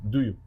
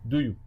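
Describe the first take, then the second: The two takes are said the same way.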